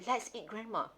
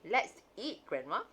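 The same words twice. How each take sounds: First: There is no pause before grandma. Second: There is a pause before grandma.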